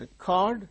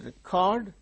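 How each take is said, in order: First: The stress is on the second syllable. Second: The same.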